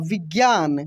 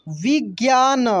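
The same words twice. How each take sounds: First: Said in the usual way. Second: विज्ञान broken into vi, gyaa, na; syllable by syllable. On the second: Shown as a demonstration. Teacher reading for learners, विज्ञान syllable by syllable. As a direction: sound out each syllable of विज्ञान. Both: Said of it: "अब direct पढ़ते हैं".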